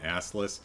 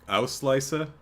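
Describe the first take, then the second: First: The name is read with English sounds. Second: The name is said with German sounds. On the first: The speaker calls it wrong. "I keep calling" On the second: The speaker calls it right. "I think that's German ... would be closer to what that's actually"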